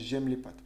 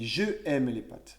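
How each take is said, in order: First: The vowel of 'je' is dropped and joined. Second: The vowel of 'je' is pronounced separately. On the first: The speaker calls it right. "on enlève le E et on met une apostrophe" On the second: The speaker calls it wrong. "c'est pas normal de dire je aime les pâtes"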